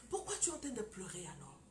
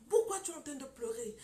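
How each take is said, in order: First: Said in the usual way. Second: Preacher calling her out, louder; louder challenge. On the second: Retold or imitated. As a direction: push the question out louder. Preacher confronts the crying woman.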